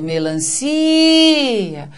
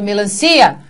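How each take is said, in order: First: The si is stretched, a said separately. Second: The cia is run together in one go. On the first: The speaker calls it right. "Vejam que o si teve o som estendido" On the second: The speaker calls it wrong. "não dá para pronunciar de uma vez"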